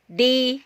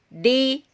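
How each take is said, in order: The two takes are said the same way.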